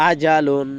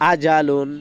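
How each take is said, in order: Both takes have the same delivery.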